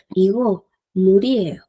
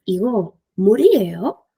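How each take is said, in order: First: Igo, murieo with a level falling statement tune; plain statement intonation. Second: Igo, murieo ending in a rising question lift on murieo; rising question intonation; question tune. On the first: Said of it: "Es una afirmación". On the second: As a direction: raise the end of murieo as a question. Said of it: "tono de pregunta". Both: Shown as a demonstration.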